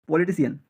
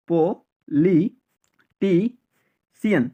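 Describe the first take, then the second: First: Said in the usual way. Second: পো-লি-টি-সিয়ান slow, a pause after each piece; syllable by syllable. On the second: Shown as a demonstration. Teacher drilling learners, পো-লি-টি-সিয়ান in slow separate syllables.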